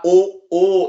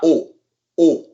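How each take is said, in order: First: The vowel is drawn out long. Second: The vowel is cut very short. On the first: The speaker calls it wrong. "it's not like O O in English" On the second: The speaker calls it right. "very brief"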